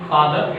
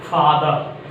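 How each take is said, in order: First: Father with the final R sounded; wrong pronunciation. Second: Father with the final R left silent. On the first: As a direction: say "father" ending in an audible R. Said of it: "it's a wrong". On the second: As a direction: end "father" on an open vowel, no R. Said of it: "R silent". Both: Shown as a demonstration.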